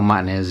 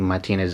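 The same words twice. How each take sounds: First: The name is said in an Australian style. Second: The name is said in the standard way. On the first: "as uh, some Aussies would like to say" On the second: "probably the correct way to say it"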